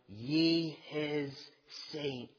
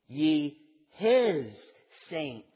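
First: The stress falls on the word saints. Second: The stress falls on the word his.

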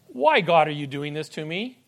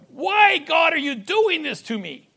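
First: It sounds like a hopeful, trusting question. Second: It sounds like an accusing, complaining question. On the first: The speaker trusts that there is a good reason. "anticipating God has everything in control" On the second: The speaker is complaining against what God is doing. "Instead of questioning God"

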